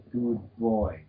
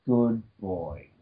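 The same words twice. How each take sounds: The two takes are said the same way.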